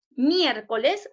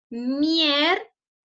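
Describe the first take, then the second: First: Said in the usual way. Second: "Miércoles" slowly split into mier, co, les; syllable by syllable. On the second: Shown as a demonstration. Teacher divides the example for pupils, "Miércoles" syllable by syllable. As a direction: say "Miércoles" as three separate syllables with clear gaps. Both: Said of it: "lo vamos a dividir en sílabas".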